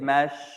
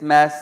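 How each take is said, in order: First: The syllable ends with an sh sound. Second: The syllable ends with an s sound. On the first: The speaker calls it wrong. "some of us mistakenly pronounce this seen as a sheen. We say mash" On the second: The speaker calls it right. "It's mass, mass. It's a seen"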